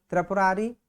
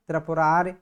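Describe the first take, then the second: First: त्रिपुरारी ending in a long "ree"; form to be corrected. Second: त्रिपुरार ending on r, no final vowel; corrected form. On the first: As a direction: finish त्रिपुरारी on a full ee vowel. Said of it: "क्या हो जाएगा इसका?". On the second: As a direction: cut त्रिपुरार off at the r. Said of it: "त्रिपुरारी का त्रिपुरार हो जाएगा". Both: Shown as a demonstration.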